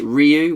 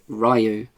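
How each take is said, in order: First: The first syllable sounds like 'ree'. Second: The first syllable sounds like 'rye'. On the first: "with an R E E" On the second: "with an R Y"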